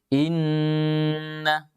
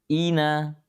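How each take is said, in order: First: The n sound is pressed and held long. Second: The n sound is short and not pressed. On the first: The speaker calls it right. "tekanannya ada" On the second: The speaker calls it wrong. "Beda kalau tidak ditekan"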